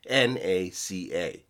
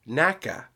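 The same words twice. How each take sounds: First: Each letter is said separately, N-A-C-A. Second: It is said as one word, rhyming with NASA. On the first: "pronounced as an initialism, meaning as each individual letter" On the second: "people then assumed that it had been pronounced NACA"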